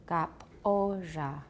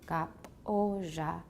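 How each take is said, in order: First: The first consonant is voiceless, like a k. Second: The same.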